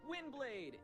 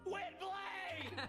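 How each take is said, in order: First: It is said calmly, without screaming. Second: It is screamed loudly and aggressively.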